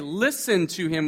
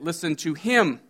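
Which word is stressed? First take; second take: listen; him. First: The stress is on listen. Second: The stress is on him.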